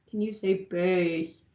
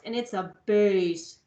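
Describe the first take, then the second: First: Lowered, soft and slow prompt; low bass voice. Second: Lowered and slowed on bass; low bass voice. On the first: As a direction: keep it deep while asking them to say it. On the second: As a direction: drop the voice for the biggest recorder. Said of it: "the biggest one is the lowest". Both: Shown as a demonstration.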